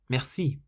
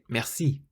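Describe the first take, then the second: First: The stress is on the last syllable. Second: The stress is on the last syllable.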